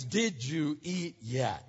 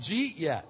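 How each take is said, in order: First: "Did you eat yet" slowly, each word separate; careful translation. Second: "Did you eat yet" collapsed into a quick "jeet yet"; slurred dialect form. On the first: Preacher translates local slang for listeners, slow and fully pronounced "Did you eat yet". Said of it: "That means". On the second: Preacher names the local expression, "Did you eat yet" run together as "jeet yet". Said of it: "It's called". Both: Shown as a demonstration.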